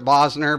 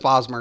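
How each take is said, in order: First: The middle consonant is an N sound. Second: The middle consonant is an M sound. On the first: The speaker calls it wrong. "I always pronounce it Bosner" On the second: The speaker calls it right. "but it's Bosmer"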